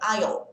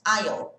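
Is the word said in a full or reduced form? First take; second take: full; full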